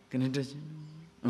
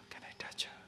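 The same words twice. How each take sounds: First: Slow, soft, voiced murmur; softly murmured temptation; hushed murmur. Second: Breathy secret whisper, very soft; hushed tempted whisper. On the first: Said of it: "why that whispering comes?". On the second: Acted. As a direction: lean in and whisper the wish. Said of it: "why that whispering coming?".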